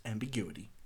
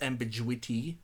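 First: Said in the usual way. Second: "ambiguity" with a j sound for the g, am-bi-JOO-ity; wrong pronunciation. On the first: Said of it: "it's ambiguity". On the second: Shown as a demonstration. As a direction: say "ambiguity" as am-bi-JWI-tee, questioning. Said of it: "It's not pronounced ambiguity".

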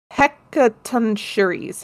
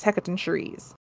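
First: Hecatoncheires sounded out very slowly; careful pronunciation. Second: Hecatoncheires said fast and much softer; quick repeat. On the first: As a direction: spell out Hecatoncheires syllable by syllable. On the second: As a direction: mutter Hecatoncheires as a throwaway. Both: Shown as a demonstration. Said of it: "I am gonna butcher how this is said".

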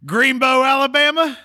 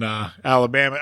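First: High, rising Forrest Gump joke; playful. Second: Said in the usual way. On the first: Acted. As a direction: pitch it way up and tease. Jokes about Forrest Gump's hometown.

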